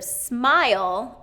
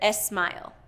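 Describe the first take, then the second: First: The word starts directly with the S sound. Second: An extra vowel is added before the S. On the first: The speaker calls it right. "instead of smile" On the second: The speaker calls it wrong. "I hear smile"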